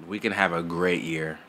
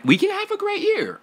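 First: Said in the usual way. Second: We can have a great year, squealed high; excited. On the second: Real, not acted. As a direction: burst up into a squeal. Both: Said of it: "repeated with growing hype".

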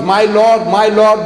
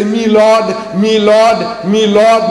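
First: Said in the usual way. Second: Lightly imitated English accent, higher and louder, saying "Me Lord" for "My Lord"; a hint of a posh English courtroom "Me Lord". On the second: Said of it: "The Englishman is talking about the magistrate".

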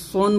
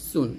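First: "সোন" with a thick s and rounded o; wrong heavy S. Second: "সুন" with a thin, light s and u vowel. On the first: Teacher warning it turns into sad, wrong "সোন". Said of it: "সোন বলবেন না". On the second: Teacher telling students it must be thin, light "সুন". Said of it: "পাতলা হবে, সোন বলবেন না". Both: Shown as a demonstration.

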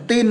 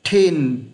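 First: "tin" with a hard t and no puff of air; short, higher Vietnamese-style "tin"; wrong tin. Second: "Thin" with airy th, falling onto a held n; breath on the th of "Thin", tone dropping; correct thin. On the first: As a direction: say "tin" as the mistake to avoid. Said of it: "Không phải là tin đâu nhá". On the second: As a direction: model "Thin" slowly, stressing the final n. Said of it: "Vị trí cuối cùng của chữ N nhá". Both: Shown as a demonstration.

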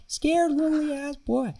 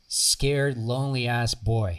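First: High, drawn-out Boston accent impression; Boston-accented teacher stretching the words out high. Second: Said in the usual way. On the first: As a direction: imitate a Boston teacher, pitched way up and slow. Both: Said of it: "He's from Boston. He's like".

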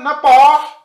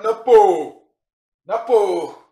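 First: "napa" with a wide open final vowel, high and loud; wrong vowel. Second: "napo" with a long close o trailing into h; correct close vowel. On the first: Teacher showing learners what to avoid, wrong open vowel. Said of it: "not napa, but napo". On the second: Teacher correcting the vowel for learners, correct close o. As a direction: say "napo" with rounded o and a final h. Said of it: "and the H is there". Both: Shown as a demonstration.

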